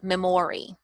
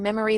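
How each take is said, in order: First: The middle vowel is a full O. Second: The middle vowel is a weak schwa. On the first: The speaker calls it wrong. "they may say memory" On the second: The speaker calls it right. "So your O sound is actually the schwa"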